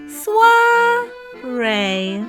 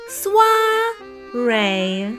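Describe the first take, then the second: No difference in how they are said.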